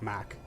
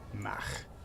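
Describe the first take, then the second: First: It is said with an American accent. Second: It is said with a Scottish accent. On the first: "when we Americans say it" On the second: "You get a Scotsman to say it"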